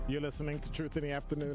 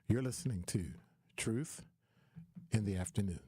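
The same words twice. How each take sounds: First: It is said in his normal radio voice. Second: It is said in a soft, calm put-on voice.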